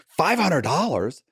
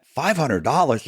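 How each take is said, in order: First: Higher, slow incredulous echo, hand over mouth; stunned disbelief. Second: Higher, slow incredulous echo; stunned disbelief. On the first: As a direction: hold back a laugh as you repeat it. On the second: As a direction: repeat the price like you can't believe it. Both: Retold or imitated. Stunned at tiny fee.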